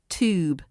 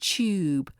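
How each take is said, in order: First: No y sound comes before the vowel. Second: A slight y sound comes before the vowel. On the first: The speaker calls it wrong. "not tube" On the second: The speaker calls it right. "pronounced with a slight y sound at the beginning. Tube"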